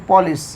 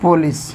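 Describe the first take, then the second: First: पॉलिस with an open o; English police. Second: पुलिस with a u start, the Hindi way; Hindi police. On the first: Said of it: "India में पुलिस बोला जाता है". (पॉलिस अंग्रेज़ी उच्चारण में) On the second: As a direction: say पुलिस as pu-lis, Indian style. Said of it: "Hindi में पुलिस बोला जाता है". (पुलिस हिंदी उच्चारण में) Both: Shown as a demonstration.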